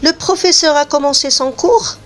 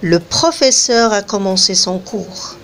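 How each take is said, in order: First: The voice rises at the end, a question. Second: The voice falls at the end, a statement.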